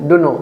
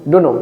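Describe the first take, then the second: No difference in how they are said.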